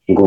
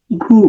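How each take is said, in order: First: "গ" with open inherent অ, like gaw; the plain open sound of "গ"; open vowel. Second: "ঘু" with a closed, rounded vowel, like goo; changed vowel. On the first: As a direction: say "গ" as written, drawn-out open vowel. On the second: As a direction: say "ঘু" with the vowel raised from aw to u. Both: Shown as a demonstration. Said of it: "হয়ে যাবে".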